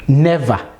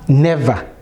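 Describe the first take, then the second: No difference in how they are said.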